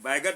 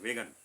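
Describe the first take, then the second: First: The first vowel is an open 'ai' sound. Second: The first vowel is a closer 'e' sound. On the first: The speaker calls it wrong. "वैगन नहीं" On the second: The speaker calls it right. "उसको वेगन बोलते हैं"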